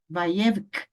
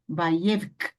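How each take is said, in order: The two takes are said the same way.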